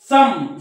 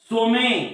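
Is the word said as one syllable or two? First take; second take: one; two. First: It is said as one syllable, 'sum'. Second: It is said as two syllables, 'so-meh'. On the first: The speaker calls it right. "उच्चार हा अ होतो" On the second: The speaker calls it wrong. "असं म्हणू नका"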